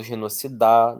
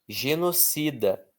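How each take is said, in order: First: Genocida wrongly stressed on the last syllable, DA; stress moved to DA. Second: Genocida slowly, CI strong; stress on CI. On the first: Teacher shows how nobody says genocida, stress on DA. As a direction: say genoci-DÁ, strong ending. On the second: Teacher reads an example word, stress on CI. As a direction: lean on CI in genocida. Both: Shown as a demonstration. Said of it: "não falo genocidar".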